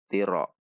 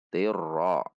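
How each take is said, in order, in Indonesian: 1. Diucapkan dengan cepat dan huruf r gandanya hilang. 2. Diucapkan dengan huruf r ganda ditahan dengan jelas. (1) "Itu terlalu cepat dalam membacanya sehingga tasydidnya terkesan hilang" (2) "Ada tekanan pada tasydid"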